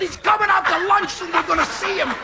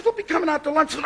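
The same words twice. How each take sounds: First: Higher, thrilled repeat of the news; excited echo. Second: Said in the usual way. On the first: Retold or imitated. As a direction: echo it back giddy with star excitement.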